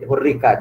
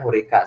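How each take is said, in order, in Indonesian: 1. Bunyi r-nya dobel dan ditahan lebih lama. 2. Bunyi r-nya pendek dan tunggal. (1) "rohnya ada dua. Jadi pakai tasjid" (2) "N U bacanya hurika saja"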